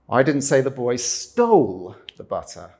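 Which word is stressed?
stole. The stress is on "stole".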